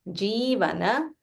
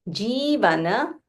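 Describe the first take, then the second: Both takes have the same delivery.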